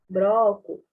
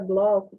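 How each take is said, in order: First: The consonant after the B is an R. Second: The consonant after the B is an L. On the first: "como que a gente costuma falar? Broco" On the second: "Palavra bloco"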